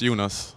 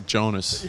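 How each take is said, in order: First: The name has a non-American pronunciation. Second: The name has the usual American pronunciation. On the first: This is the name's proper pronunciation. The speaker calls it right. "But it's Jonas" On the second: This is how most Americans say the name. The speaker calls it wrong. "Usually Americans say Jonas"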